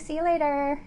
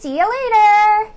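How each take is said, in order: First: It is said in the speaker's own voice. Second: It is said imitating Pan's voice.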